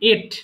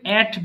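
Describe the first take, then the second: First: The vowel sounds like in 'et'. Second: The vowel sounds like in 'at'. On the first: The speaker calls it right. "But এটার উচ্চারণ হবে এট" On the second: The speaker calls it wrong. "অনেকে ভুল করে অ্যাট বলে ফেলে"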